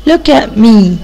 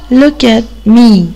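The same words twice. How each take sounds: First: Said in the usual way. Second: "look at me" stretched out slowly, word by word; slow teaching model. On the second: Shown as a demonstration. Teacher modeling for children, slow and clear. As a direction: spell "look at me" out slowly for young learners.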